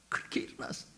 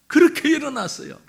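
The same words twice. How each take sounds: First: Near-whisper, very soft; hushed repeat. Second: Raised, forceful preaching voice; emphatic proclamation. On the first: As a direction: drop to an awed whisper. Hushed repeat after emphatic proclamation. (속삭이듯 아주 작게) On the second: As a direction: proclaim it strongly to the congregation. Sermon climax, then hushed repeat. (힘주어 선포하듯) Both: Real, not acted.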